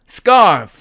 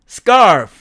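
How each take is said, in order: The two takes are said the same way.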